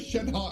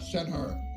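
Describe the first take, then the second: First: The last syllable ends without an r sound. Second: The last syllable ends with an r sound. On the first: The speaker calls it right. "Just say Shenhe" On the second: The speaker calls it wrong. "and not Shenher"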